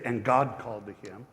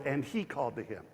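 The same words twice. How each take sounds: First: "God" pressed with a slight rise; reading the verse with "God" leaned on; stress on God. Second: "he" marked, the line softer; the quieter alternate reading, weight on "he"; stress on he. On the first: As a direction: put the weight on "God". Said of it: "But it should say". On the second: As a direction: lean lightly on "he". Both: Shown as a demonstration.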